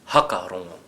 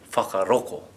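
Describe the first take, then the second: First: The opening 'wh' is said as an 'h'. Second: The 'ng' sound is replaced by a 'k'. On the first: "And how would Ngāpuhi say it?" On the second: "And if we were from Kaitahu or Ngaitahu?"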